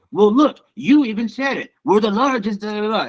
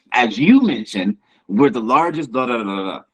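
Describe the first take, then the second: First: High-pitched, arrogant politician impression; Donald Trump. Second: Measured politician, stressing YOU in "As you mentioned"; modest, measured imitation of a politician; not arrogant. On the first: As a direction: put on a boastful president's voice. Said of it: "The way Donald Trump would say it". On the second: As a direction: say it like a tactful politician. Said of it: "a way to not seem arrogant".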